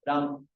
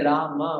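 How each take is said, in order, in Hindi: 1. शब्द अंत में एक सादा अंतिम व्यंजन पर खत्म होता है। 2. शब्द का अंत एक छोटे अंतिम स्वर से होता है। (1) "एक में लगता है हलन" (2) "एक है राम"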